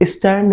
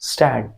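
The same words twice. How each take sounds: First: The word does not begin directly with s. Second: The word begins directly with the s sound. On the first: The speaker calls it wrong. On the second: The speaker calls it right.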